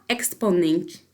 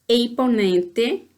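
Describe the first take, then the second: First: The consonant cluster is pronounced in full. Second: The first consonant of the cluster becomes a vowel. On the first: This is how a Guarani speaker never says it. "pero nunca exponente" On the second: This is how a Guarani speaker says it. "O máximo que um guarani hablante podrá decir é exponente"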